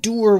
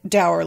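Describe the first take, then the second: First: The vowel is an ooh sound, like moor. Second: The vowel rhymes with sour. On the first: "I'm saying door with more of an ooh sound" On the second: "dour like sour"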